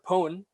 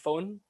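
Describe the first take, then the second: First: The word begins with a p sound. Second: The word begins with an f sound. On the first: "So pone" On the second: "The ph is just uh, makes a fuss sound"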